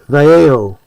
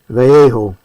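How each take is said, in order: Both takes have the same delivery.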